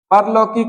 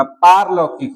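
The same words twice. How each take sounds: First: परलौकिक with short "par"; wrong form. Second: पारलौकिक with long slow "paar"; correct form. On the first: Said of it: "परलौकिक नहीं होगा". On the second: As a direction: draw out the opening of पारलौकिक. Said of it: "पारलौकिक होगा". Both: Shown as a demonstration.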